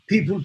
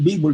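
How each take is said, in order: First: The word begins with a P sound. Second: The word begins with a B sound.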